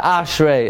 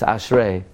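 First: "Ashrei" punched high on its first syllable; "Ashrei" with the accent wrongly on "Ash"; mispronounced stress. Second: "Ashrei" stressed on its last syllable; "Ashrei" with the weight on "rei"; correct stress. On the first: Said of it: "It's not Ashrei". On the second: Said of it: "it's Ashrei". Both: Shown as a demonstration.

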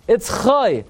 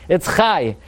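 First: Put-on "Chai" rhyming with "boy"; oy ending. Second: "Chai" rhyming with "eye"; ai ending. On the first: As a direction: say "Chai" as KHOY, high then falling. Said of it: "Whenever it appears at the end". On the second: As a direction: say "Chai" as KHAI, with falling tune. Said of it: "Every single time the name appears". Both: Shown as a demonstration.

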